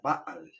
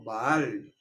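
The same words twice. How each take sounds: First: The stress is on the first syllable. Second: The stress is on the last syllable. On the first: "en hebreo es una palabra llana o grave" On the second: "están acostumbrados a oír ese nombre pronunciado"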